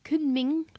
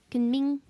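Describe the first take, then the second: First: Kunming said with a rising tune; pronunciation of Kunming. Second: Kunming said flatter, as kənmɪŋ; corrected pronunciation. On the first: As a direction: try Kunming, ending upward. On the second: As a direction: settle Kunming, level tune. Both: Shown as a demonstration.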